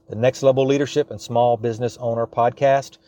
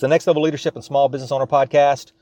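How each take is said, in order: First: The phrase is said at a slower pace. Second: The phrase is said at a fast pace. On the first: "I'll say that slower" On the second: "I know I speak fast"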